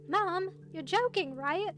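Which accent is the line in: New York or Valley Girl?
Valley Girl. It is spoken in a Valley Girl accent. "I need to think of a Valley Girl voice"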